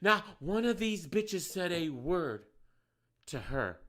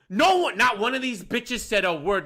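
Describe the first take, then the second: First: Softer, slow, restrained repeat; apologising to listeners, quieter; calmer. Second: Yelling. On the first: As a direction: pull it back after yelling. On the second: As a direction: shout it in outrage. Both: Real, not acted. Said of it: "I'm sorry for yelling".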